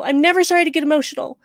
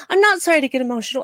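First: NEVER raised and punched, fast defiant line; stress on NEVER. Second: NOT pushed up, the rest rushed fast; stress on NOT. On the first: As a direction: lean hard on "never", quick and defiant. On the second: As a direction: hit "not" firmly, talk fast around it. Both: Real, not acted.

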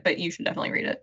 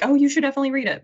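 First: Fast, breathy sincere aside; quick whispered own recommendation; hushed aside. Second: Imitating breathless girls urging a classic; hammed-up gasp of enthusiasm; gasping excitement. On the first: Real, not acted. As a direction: rush it under your breath, meaning it. Sincere quick aside after quote. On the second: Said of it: "gasping and being like".

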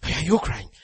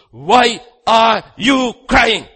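First: Said in the usual way. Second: Slow, high shout, word by word; shouted challenge. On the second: Acted. God confronts Moses at the sea, shouted challenge. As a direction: hammer each word out separately, very loud.

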